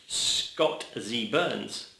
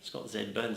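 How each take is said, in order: First: The letter Z has the American pronunciation. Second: The letter Z has the British pronunciation. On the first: "as uh, you Americans say" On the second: "as we say"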